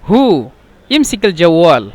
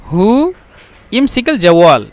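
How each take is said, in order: Both takes have the same delivery.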